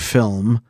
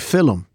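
First: It is said as one syllable, no extra vowel. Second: A helper vowel splits it into two syllables. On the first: "we don't say film" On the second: "we say film"

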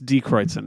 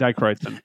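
First: The first word sounds like 'dee'. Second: The first word sounds like 'dye'. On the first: The speaker calls it right. "I keep saying it wrong. It's Die Kreutz" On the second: The speaker calls it wrong. "I keep saying Die Kreutz. I just like the way it sounds better"

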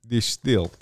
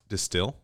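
First: It is said in a put-on Russian accent. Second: It is said in a plain, ordinary accent.

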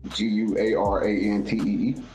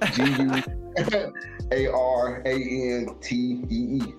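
First: The letters are spelled at normal speed. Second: The letters are spelled out slowly.

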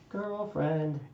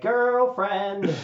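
First: It is said in a milder, toned-down way. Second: It is said in a big, exaggerated, flamboyant way. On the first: The speaker calls it right. "Take about 15% off" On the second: The speaker calls it wrong.

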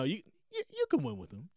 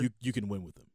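First: It is said with a higher voice. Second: It is said with a lower voice.

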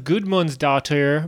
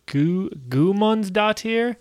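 First: A d sound is pronounced in the middle. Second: No d sound is pronounced in the middle. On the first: The speaker calls it wrong. "I always thought it was Gudmund's daughter" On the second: The speaker calls it right. "it apparently doesn't have a D"

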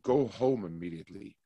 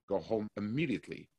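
First: The stress falls on the word home. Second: The stress falls on the word immediately.

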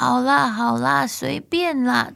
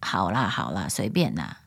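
First: The voice sounds strained, with the neck pulled forward. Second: The voice sounds flat, squeezed and unhappy.

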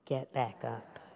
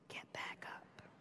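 First: It is said at medium volume. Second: It is whispered very softly.

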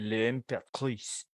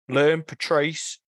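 First: The name is said in a French accent. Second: The name is said in a New Zealand accent. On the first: "Which is actually" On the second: "in the New Zealand pronunciation"

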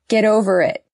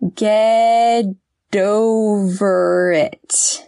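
First: The phrase is said at normal speed. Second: The phrase is said more slowly.

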